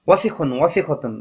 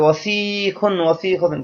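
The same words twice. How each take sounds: First: The first vowel is short and quick. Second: The first vowel is drawn out long. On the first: The speaker calls it right. "দ্রুত করতে হবে, কোথাও কোনো মদ নেই, টান নেই" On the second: The speaker calls it wrong. "সেই ওজনে এই ওয়াসিখুনকেও ফেলে দেয়"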